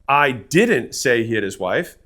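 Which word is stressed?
didn't. The stress is on the word 'didn't'.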